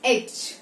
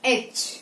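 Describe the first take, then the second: No difference in how they are said.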